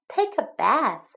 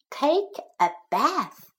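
First: Said in the usual way. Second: Unvoiced whispered drill phrase; whispering. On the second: Shown as a demonstration. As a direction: breathe the words out with no voice. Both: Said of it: "teacher repeats drill phrase".

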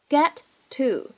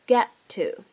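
First: "Get to" as two separate words. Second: "get to" with the t of "get" held, unreleased; loss of plosion. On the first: Teacher introduces the two words, "Get to" said separately. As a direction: say "Get", pause, then "to". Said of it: "这样的两个单词呢". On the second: Teacher shows lost plosion, "get to" with unreleased t. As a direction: stop on the first t, release into "to". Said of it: "可以有一个失去爆破". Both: Shown as a demonstration.

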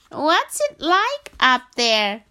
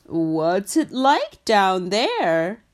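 First: High, loud, slow frog calling up to giraffe; a little frog calling far upward. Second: Slow, loud giraffe calling down to frog; a tall giraffe peering down. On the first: Frog voiced, asking giraffe. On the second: Giraffe asks frog now. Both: Acted.

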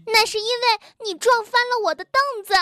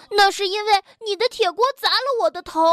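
First: High, fast quarrelling yell; angry yell. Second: High, rapid, unyielding protest; defiant comeback. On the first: Bengbeng blames Tiaotiao for the toppled stool, yelling. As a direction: yell the accusation back quickly. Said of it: "蹦蹦吼道". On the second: Tiaotiao blames Bengbeng's iron pan, defiant. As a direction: throw it straight back, refusing to lose. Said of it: "跳跳不甘示弱". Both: A narrator's reading.

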